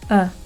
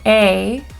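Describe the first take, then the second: First: The vowel is short, weak and reduced. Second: The vowel is full and clearly pronounced. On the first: "in its weak form, it's a" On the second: "when it's in its strong form, it's actually a"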